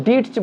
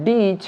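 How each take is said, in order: First: "ডিটচ" with the t sounded; "ডিটচ" said as "dit-ch"; wrong pronunciation. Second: "ডিচ" with no t before ch; silent t. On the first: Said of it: "ডিটচ বলবো না". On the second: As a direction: say "ডিচ" as "deech". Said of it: "টি silent". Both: Shown as a demonstration.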